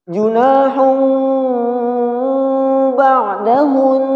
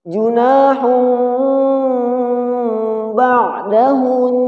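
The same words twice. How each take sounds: The two takes are said the same way.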